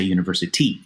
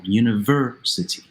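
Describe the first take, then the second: First: "university" stressed on the last syllable, universiTY; wrong final stress. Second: "university" with a strong VER; stress on third-from-last syllable. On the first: Teacher shows what we don't say, "university" with stress on final TY. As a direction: throw the stress onto TY in "university". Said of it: "We don't say university". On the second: Teacher repeats the correct English word, stress on VER in "university". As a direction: lean hard on VER in "university". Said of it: "It's in the third from last syllable". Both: Shown as a demonstration.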